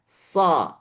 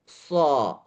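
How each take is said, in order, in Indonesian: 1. Bunyi ini dibuat dengan bibir netral, tidak dibulatkan. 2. Bunyi ini dibuat dengan bibir dibulatkan dan maju. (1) "Jadi tetap bibirnya sama" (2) "bukan so"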